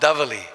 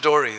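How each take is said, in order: First: The word has a v sound and an l. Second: The v is gone and l becomes r. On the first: This is the standard form of the name. "they're called davali" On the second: This is the local form of the name. "they mix their R's and L's around. So it becomes Dori"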